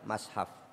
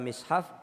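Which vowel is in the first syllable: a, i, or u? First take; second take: a; i. First: The first syllable has the vowel a. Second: The first syllable has the vowel i. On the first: "boleh dibaca mashaf" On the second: "boleh dibaca mishaf"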